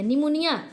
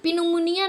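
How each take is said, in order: First: The word starts directly with the n sound. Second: A p sound is heard before the n. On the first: The speaker calls it right. "निमोनिया जिसको कहते हैं ना" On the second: The speaker calls it wrong. "पिनुमुनिया नहीं कहते हैं"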